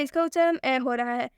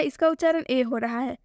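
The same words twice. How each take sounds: First: ए opened wide to ऐ; A read as open ऐ. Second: ए with a close e vowel; A read as ए. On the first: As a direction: say ए as an open 'æ'. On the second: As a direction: say ए as a long close 'ay'. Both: Shown as a demonstration. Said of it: "B ए same लिखा है".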